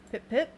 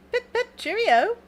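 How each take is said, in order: First: Said in the usual way. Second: High, loud, drawn-out pip-pip; playful cheerio. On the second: Pretend. Artist plays on the big pips she drew, playful high voice. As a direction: sing out a jokey farewell.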